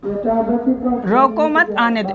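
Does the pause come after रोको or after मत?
after मत. The pause comes after मत.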